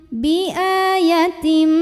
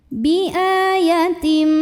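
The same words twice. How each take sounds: No difference in how they are said.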